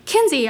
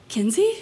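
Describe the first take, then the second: First: KINSEY called louder and higher, falling at the end; raised, falling call of "Kinsey". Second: KINSEY rising sharply at the end, as a question; uncertain, rising "Kinsey?". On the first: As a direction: call "Kinsey" across to someone. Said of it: "I hear Mila call". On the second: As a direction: ask "Kinsey?" with an upward swing. Wounded man recognises the narrator. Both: A narrator's reading.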